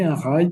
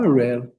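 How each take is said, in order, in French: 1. Le mot se prononce à la française. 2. Le mot se prononce à l'anglaise. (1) "on dit un rail parce qu'on le voit écrit" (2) "on ne dit pas un rail"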